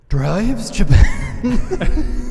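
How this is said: It is said in a put-on sexy voice.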